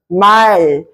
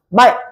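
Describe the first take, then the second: First: The final l sound is drawn out long. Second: The final l sound is closed off quickly. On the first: "이렇게 길어지는 소리" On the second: "이렇게 딱 빠르게 닫힌다는 거예요"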